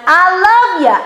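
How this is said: It sounds dismissive and unconvincing.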